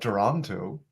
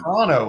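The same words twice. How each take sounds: First: Toronto is said the usual outsider way. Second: Toronto is said the way locals say it.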